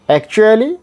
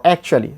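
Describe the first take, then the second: First: Actually rising high at the end; actually with a higher, rising finish; first variant. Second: Actually falling at the end; actually at usual pitch with a falling finish; second variant. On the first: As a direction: lift the end of actually like a question. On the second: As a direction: let actually drop to a close. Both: Shown as a demonstration. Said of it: "Both are correct".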